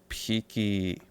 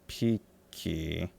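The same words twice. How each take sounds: The two takes are said the same way.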